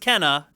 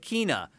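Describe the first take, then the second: First: The first vowel sounds like the 'e' in 'bed'. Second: The first vowel sounds like the 'ee' in 'bee'. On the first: The speaker calls it right. "no, it's Kenna" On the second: The speaker calls it wrong. "Sony called it Kina"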